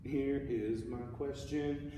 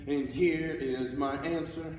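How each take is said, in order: First: Slow, evenly spaced "Here is my question", raised in pitch; musical question. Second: Slow, louder, higher "and here is my answer". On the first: Teacher demonstrating a phrase's question, slow and measured "Here is my question". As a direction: pose "Here is my question" deliberately, drawn out. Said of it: "So the question needs to be". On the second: Teacher demonstrating the repeated answer, louder, slow "and here is my answer". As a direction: declare "and here is my answer" emphatically, drawn out. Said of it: "getting louder because it's a repeat".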